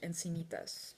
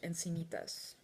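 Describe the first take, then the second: First: The name is said with Spanish pronunciation. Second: The same.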